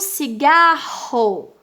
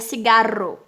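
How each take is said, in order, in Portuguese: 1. O R do meio é um som forte e firme. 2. O R do meio é uma batida leve e fraca.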